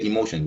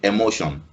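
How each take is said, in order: First: The first vowel is a high 'ee' sound. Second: The first vowel is an open 'eh' sound. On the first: "We say emotion with an like an e sound" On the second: "It starts with an eh instead of an e"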